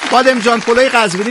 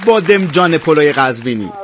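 First: Bademjan runs into polo with no linking vowel. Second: An 'e' vowel links bademjan to polo. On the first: The speaker calls it right. "بادمجان پلوی قزوینی دیگه" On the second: The speaker calls it wrong. "نه بادمجان پلوی قزوینی"

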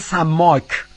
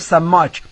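First: It is said with standard Arabic pronunciation. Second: It is said with local dialect pronunciation. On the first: "اما عربی فصیح میگه" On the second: "به کسی که ماهیگیر باشه بهش میگیم"

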